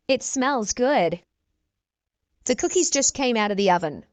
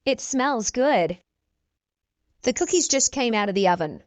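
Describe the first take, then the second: No difference in how they are said.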